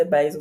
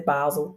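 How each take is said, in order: First: Basel said as BAY-zul; first pronunciation variant. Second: Basel said as BAH-zul; second pronunciation variant. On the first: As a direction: say Basel with a long AY in the first syllable. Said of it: "Some people say Basel". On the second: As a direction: say Basel with an open AH in the first syllable. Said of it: "some people say Basel". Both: Shown as a demonstration.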